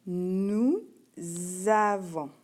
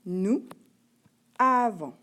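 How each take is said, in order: First: "nous avons" as nou... zzavons, loud and drawn out; liaison. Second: "nous avons" split, avons starting on a bare vowel; no liaison. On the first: Teacher demonstrating liaison between S and A, "nous avons" with z. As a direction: hold a buzzing z at the start of "avons". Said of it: "J'ai fait une liaison". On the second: Teacher showing how it is written, "nous avons" without liaison. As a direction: say "nous", pause, then loud "avons" without any z. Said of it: "lorsque tu l'écris". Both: Shown as a demonstration.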